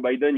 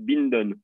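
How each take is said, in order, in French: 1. Le nom se prononce sans n avant le d. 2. Le nom se prononce avec un n avant le d. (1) "il prononce le nom de Joe Biden" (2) "ils disent Binden"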